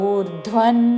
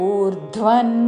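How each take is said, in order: No difference in how they are said.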